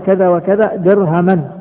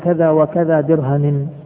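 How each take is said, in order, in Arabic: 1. تنتهي الكلمة الأخيرة بصوت -an. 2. تنتهي الكلمة الأخيرة بصوت -in. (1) "في النقض" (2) "بالجر"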